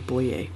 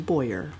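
First: The name is said with a French pronunciation. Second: The name is said with an English pronunciation. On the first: This is how the French-Canadian side of the family says it. "they say Boyer" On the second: This is how English speakers in Ontario say it. "when you're Anglo and you don't speak French or use it at all, it turns into Boyer"

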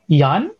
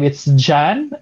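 First: The name begins with a Y sound. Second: The name begins with a J sound. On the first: "they pronounce J as Yan, as Y" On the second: "in a Western perspective, it's Jan"

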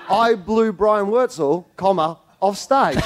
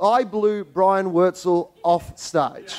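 First: There is a break after Wurtzel. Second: It runs straight on without a pause.

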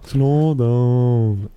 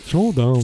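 First: It is said very slowly and drawn out. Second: It is said more quickly, less drawn out.

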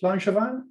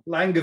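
First: The name is pronounced the French way. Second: The name is pronounced as English spelling suggests. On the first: "Presumably French" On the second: "say it as you see it"

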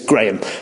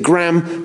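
First: The name is said with a British pronunciation. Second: The name is said with an American pronunciation. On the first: "It's Graham" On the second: "He pronounces it Graham, but that's because he's American"

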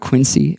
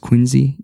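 First: The middle consonant sounds like an S. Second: The middle consonant sounds like a Z. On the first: The speaker calls it wrong. "It's not Quincy" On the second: The speaker calls it right. "It's Quincy. The C is as a Z sound"

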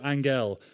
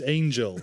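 First: The name is said with a Spanish pronunciation. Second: The name is said with an English pronunciation. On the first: The name is assumed to be Spanish. The speaker calls it wrong. "it's probably Spanish descent. So you go Angel" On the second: This is how the person actually says the name. The speaker calls it right. "but her name was Angel"

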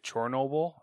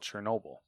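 First: The first vowel sounds like an O. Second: The first vowel sounds like an E. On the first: It follows the Ukrainian spelling. "if it's the Ukrainian spellings with an O, is it Chernobyl" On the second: It keeps the familiar older spelling. "or is it still Chernobyl?"

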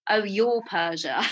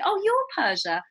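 First: It sounds mocking and dismissive. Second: It sounds admiring and impressed. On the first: The name sounds strange or laughable. "which I used to hate, but now I used to get when I was at school" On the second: The name is recognized and respected. "even that slight intonation change, okay, I'm doing all right in life"

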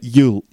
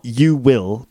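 First: The two words merge into one short syllable. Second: Both words are said separately in full. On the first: The speaker calls it right. "but you'll attract" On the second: The speaker calls it wrong. "Not you will"

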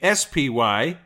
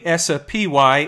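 First: The word is said in a plain accent. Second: The word is said with an Italian-sounding accent. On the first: The speaker calls it right. "it's the SPY" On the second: The speaker calls it wrong. "I just acquired the Italian accent. It's not the SPY"

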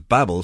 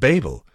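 First: The name does not rhyme with table. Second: The name rhymes with table. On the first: The speaker calls it right. "Babel sounds better than Babel" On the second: The speaker calls it wrong. "because Babel sounds like table"

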